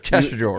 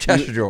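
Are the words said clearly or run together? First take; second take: run together; run together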